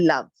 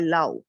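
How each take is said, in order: First: The final V sound is clearly pronounced. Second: The final V sound is left out. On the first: The speaker calls it right. "it has to be love" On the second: The speaker calls it wrong. "you have uh, skipped the V over there"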